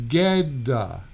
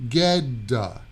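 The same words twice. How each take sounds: The two takes are said the same way.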